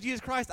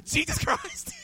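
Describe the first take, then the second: First: Said in the usual way. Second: Jesus Christ thrown out much higher and louder; yelled out. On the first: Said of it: "every time he said". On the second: Retold or imitated. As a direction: shout the name back like an eager amen. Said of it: "I'd yell out".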